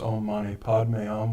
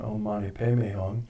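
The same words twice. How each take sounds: First: The mantra is pronounced the Indian way. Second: The mantra is pronounced the Tibetan way. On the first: "which is the Indian pronunciation" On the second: "This is the Tibetan"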